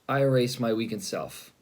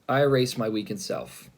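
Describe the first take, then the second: First: It is said with heavy, pained feeling. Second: It is said with heavy, pained feeling.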